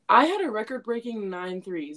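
It is said boldly and proudly.

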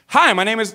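The greeting sounds overly excited.

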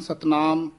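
The two words are run together as one. The speaker calls it wrong. "कई इकट्ठा ही बोल जाते हैं"

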